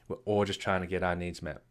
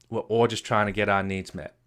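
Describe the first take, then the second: First: Softer and lower repeat of the line; a quiet, reflective restatement for emphasis; soft echo. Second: Said in the usual way. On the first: Shown as a demonstration. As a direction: let the repeat sink in quietly. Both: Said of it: "repeated softer".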